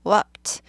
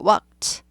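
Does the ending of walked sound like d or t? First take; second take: t; t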